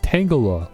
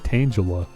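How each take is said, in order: First: The G is hard, as in tangle. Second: The G is soft, as in tangent. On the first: The speaker calls it right. "I know it's a hard G. ... like tangle" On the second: The speaker calls it wrong. "Why do I always want to give you a soft G?"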